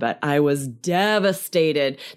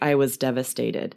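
First: It is said with strong, heavy emotion. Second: It is said flatly, without strong emotion. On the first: The feeling matches the word. The speaker calls it right. "to make it match the word, how That's extreme true. The emotion is" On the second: The feeling does not match the word. The speaker calls it wrong. "If you totally say that, like, I was devastated, that doesn't make sense"

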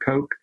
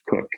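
First: The name has the vowel of 'coke'. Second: The name has the vowel of 'cook'. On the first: "I think that I should be pronouncing it Coke" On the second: "I have always heard that it is pronounced Cook"

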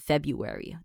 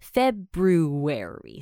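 First: The first r sound is dropped. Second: The first r sound is pronounced. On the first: The speaker calls it wrong. "我也是会念February，但是我就是懒懒的" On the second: The speaker calls it right. "所以它应该要念February"

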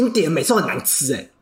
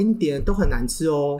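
First: It is said in a harsh, blunt tone. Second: It is said in a softer, gentle tone.

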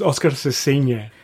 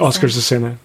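First: The name is said with a Spanish pronunciation. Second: The name is said with an English pronunciation. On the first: "if you want to pronounce it correctly, it's" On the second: "like that"

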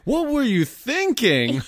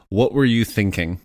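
First: It is said in a put-on scolding voice. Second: It is said in a plain reading voice.

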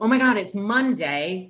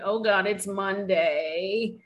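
First: It sounds eager and full of excitement. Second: It sounds weary and full of dread.

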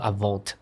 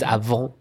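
First: A final T sound is pronounced. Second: The final T is silent. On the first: The speaker calls it wrong. "It's not avant" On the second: The speaker calls it right. "It's avant"

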